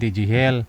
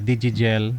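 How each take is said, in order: First: The last part begins with an H sound. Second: The last part begins with a hard G sound. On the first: The speaker calls it wrong. "nagkamali po kayo ng pronounce kanina sir" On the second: The speaker calls it right. "Imbis na Digigel"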